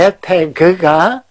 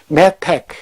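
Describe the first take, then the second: First: The word ends with a full final syllable. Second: The word ends with a clipped final consonant. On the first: This is the modern Israeli form. "현대 이스라엘의 표현이지만" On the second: This is a shorter, easier form. "나는 좀 편하게 메텍"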